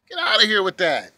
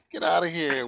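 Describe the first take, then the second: First: Scoffing. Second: Said in the usual way. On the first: Real, not acted. Scoffing at distraction.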